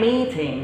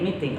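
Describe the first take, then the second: First: The first vowel is a long E. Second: The first vowel is a short E. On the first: "We don't say meeting" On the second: "we just say meeting"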